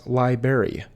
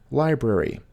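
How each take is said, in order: First: Library said LYE-berry; common mispronunciation. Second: Library with both r sounds, LYE-brary; correct pronunciation. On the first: Teacher showing viewers the wrong way. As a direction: say library without the first r. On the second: Teacher showing viewers the right way. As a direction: say library with the first r. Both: Shown as a demonstration. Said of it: "often mispronounced as library".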